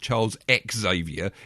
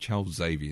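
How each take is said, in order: First: Xavier starts with an extra ex sound. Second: Xavier starts without an extra ex sound. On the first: The speaker calls it wrong. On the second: The speaker calls it right. "Let's let's pronounce that properly"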